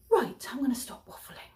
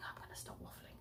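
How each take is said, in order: First: Hushed whisper, pitched up. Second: Barely audible whisper, much softer; faint whisper. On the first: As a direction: whisper it like a secret wrap-up. Wrapping up the vlog. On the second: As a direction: let it fade almost to nothing. Repeated, even fainter. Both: Real, not acted.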